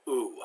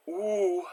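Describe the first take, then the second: First: Ooh as a plain American 'oo'; French vowel ooh flattened into an American accent; bad American accent. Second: Ooh held long, lips pursed, tongue back; pursed French ou. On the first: Teacher showing the easy substitute, bad American accent. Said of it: "bad American accent". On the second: Teacher showing the hardest sound, pursed lips. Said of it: "Lips pursed". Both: Shown as a demonstration.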